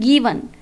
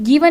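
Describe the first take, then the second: First: The stress is on the first syllable. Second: The stress is on the second syllable. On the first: The speaker calls it right. "Given में सिर्फ गी है उस पे हम stress दे रहे" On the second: The speaker calls it wrong. "एक given नहीं होता"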